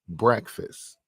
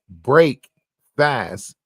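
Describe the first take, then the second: First: It is said as one blended word. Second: It is said as two separate words. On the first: "but pronounce it breakfast" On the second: "You spell it break fast"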